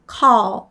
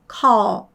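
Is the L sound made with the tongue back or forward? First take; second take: forward; forward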